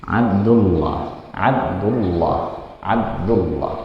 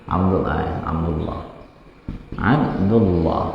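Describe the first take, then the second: No difference in how they are said.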